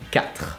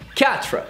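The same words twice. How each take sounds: First: The R is a throaty French R. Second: The R is an English-like R. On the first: "if you manage to do the French R, it's perfect" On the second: "just go with Katrina, but without the in"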